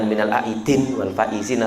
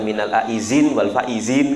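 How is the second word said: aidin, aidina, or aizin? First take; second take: aidin; aizin. First: The second word ends in 'din', dropping the vowel. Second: The second word uses a 'z' sound, not 'd'.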